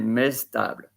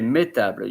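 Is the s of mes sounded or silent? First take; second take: sounded; silent. First: The s of mes is sounded before table. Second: The s of mes is silent before table. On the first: The speaker calls it wrong. "you don't say mestable" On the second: The speaker calls it right. "you say métable"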